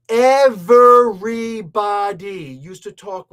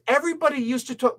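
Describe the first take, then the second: First: "everybody" very loud, syllable by syllable, then drop back; stress on everybody. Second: Said in the usual way. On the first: Real, not acted. Commentator restarts to insist on a point, "everybody" punched out loud. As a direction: hammer out each syllable of "everybody", much louder. Restarts, hammering the first word.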